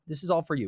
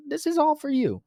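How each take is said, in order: First: Raised pitch but closer to normal voice; lightly voiced fawning crowd; milder insistence. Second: Very high, squeaky mock plea; hammed-up falsetto insisting; whiny insistence. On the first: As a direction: repeat the plea coming down from falsetto. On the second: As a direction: squeal it like a fawning crowd. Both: People insisting to God.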